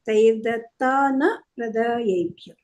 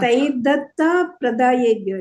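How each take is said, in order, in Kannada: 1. ಮೊದಲ ಪದ ದೀರ್ಘ 'taana' ನಲ್ಲಿ ಕೊನೆಗೊಳ್ಳುತ್ತದೆ. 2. ಮೊದಲ ಪದ ಸಣ್ಣ 'ta' ನಲ್ಲಿ ಕೊನೆಗೊಳ್ಳುತ್ತದೆ.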